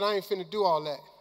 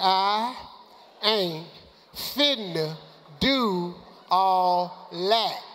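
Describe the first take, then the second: First: It is said at normal speed. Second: It is said slowly and deliberately.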